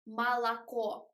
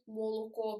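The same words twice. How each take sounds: First: The unstressed vowels are a wide open a. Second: The unstressed vowels are a full round o. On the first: "They write a here, but it isn't correct because we don't say молоко" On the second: "properly as we write it"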